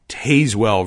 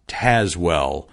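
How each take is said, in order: First: The name is said the literal, expected way. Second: The name is said the local, actual way. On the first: The speaker calls it wrong. "like it should be Tazewell" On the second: The speaker calls it right. "It is Tazewell"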